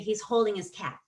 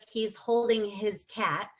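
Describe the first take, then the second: First: The h in 'his' is dropped. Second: The h in 'his' is pronounced. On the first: "we say" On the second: "instead of"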